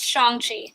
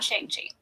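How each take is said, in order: First: Shang-Chi said as SHAHNG-chee; correct pronunciation. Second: Shang-Chi said as SHANG-chee, rhyming with hang; wrong pronunciation. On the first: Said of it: "it is pronounced Shang-Chi". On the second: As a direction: say Shang-Chi with a flat American "a". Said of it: "not Shang-Chi". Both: Shown as a demonstration.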